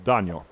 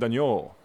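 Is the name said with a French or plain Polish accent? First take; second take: Polish; French. First: The name is said with a plain Polish accent. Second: The name is said with a French accent.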